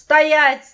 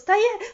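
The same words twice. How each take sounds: First: The word is said loud and commanding. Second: The word is said soft and without force. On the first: The command works and the child stops at once. The speaker calls it right. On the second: The command does not work. The speaker calls it wrong.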